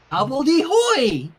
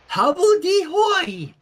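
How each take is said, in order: First: Put-on loud, slow baby shout; toddler voice again. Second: Put-on high, slow, loud baby word; toddler voice. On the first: Flurry repeating the word at Rainbow, loud and slow. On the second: Flurry repeating the silly word, high baby squeal.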